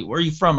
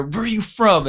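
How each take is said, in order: First: Said in the usual way. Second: Mock yell in a thick Rhode Island Italian accent; retold screaming cop. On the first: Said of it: "the cop looks at me". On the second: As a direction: imitate a cop yelling, much higher pitched. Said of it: "just screaming at my buddy".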